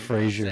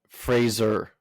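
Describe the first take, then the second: First: The name ends like the word glazier. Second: The name ends like the word laser. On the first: The speaker calls it wrong. "No, not Frazier" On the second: The speaker calls it right. "F R A Z E R, like laser, but Fraser"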